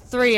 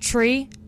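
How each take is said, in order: First: The word begins with a TH sound. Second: The word begins with a plain T sound. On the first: This is how it is said here. "But here it's three" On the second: This is how it is said at home. "I don't pronounce TH at home. Like it's tree"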